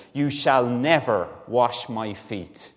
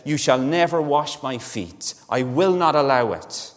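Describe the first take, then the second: First: Slow, deliberate "You shall never wash my feet."; slow flat refusal, every word weighted; so definitely. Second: Louder "You shall never wash my feet", "never" hit hard; insist, raising the voice on "never"; forceful refusal, pushing louder toward "I will not allow it"; emphatic. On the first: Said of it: "he says to Jesus so definitely". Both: Retold or imitated.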